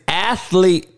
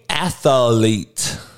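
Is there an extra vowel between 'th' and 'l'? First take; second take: no; yes. First: No vowel sounds between th and l. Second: An extra vowel sounds between th and l. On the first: The speaker calls it right. "It is athlete" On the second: The speaker calls it wrong. "it ain't no A in that motherfucker. It ain't athlete"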